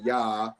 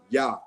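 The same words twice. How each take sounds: First: The vowel glides on without a stop. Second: The vowel is cut off by a throat stop. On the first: The speaker calls it wrong. "It doesn't go into ya" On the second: The speaker calls it right. "It's a guttural stop"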